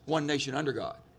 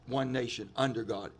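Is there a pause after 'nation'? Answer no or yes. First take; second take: no; yes. First: It is said straight through without pausing. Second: There is a pause after nation. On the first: The speaker calls it right. "all together" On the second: The speaker calls it wrong. "It's not"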